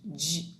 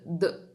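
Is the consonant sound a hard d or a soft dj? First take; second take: soft dj; hard d. First: The d is softened into a dj sound. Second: The d is a plain hard d sound. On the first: "que é dinossauro" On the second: "que é de dado, dedo"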